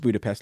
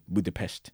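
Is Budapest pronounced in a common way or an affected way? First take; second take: common; affected. First: It is pronounced the common, everyday way. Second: It is pronounced in a fancy, affected way. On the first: This is how most people say the name. "He says Budapest, like, you know, 95% of people on Earth" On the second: The speaker is being pretentious. "She's being hoity-toity, being Budapest"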